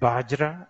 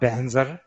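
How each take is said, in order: First: The word begins with a b sound. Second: The word begins with 'ban' and ends 'zar'. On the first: This is how people in Nepal say it. "Nepali people say Bajra" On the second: This is how Tibetans say it. "Tibetans got Banzar"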